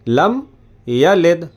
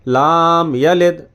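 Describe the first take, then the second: First: The first word has a short clipped vowel. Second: The first word has a long drawn-out vowel. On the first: The speaker calls it right. "तो लम यलिद है" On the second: The speaker calls it wrong. "लम को लाम बोल देते हैं"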